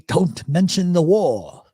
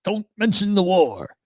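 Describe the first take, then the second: First: Slow, mock-stern Fawlty line; John Cleese line. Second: A touch higher, mock-stern repeat; John Cleese line. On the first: A hint of John Cleese warning about the war, slow. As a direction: lightly deliver Cleese's famous warning slowly. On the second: Host repeating the Cleese line to listeners, lightly mock-stern. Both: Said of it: "I am not John Cleese".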